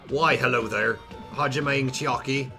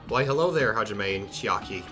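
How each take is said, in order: First: It is spoken in a Scottish accent. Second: It is spoken in an Irish accent. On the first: "Scot- a Scottish accent" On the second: "Should I do an Irish voice for Nagito?"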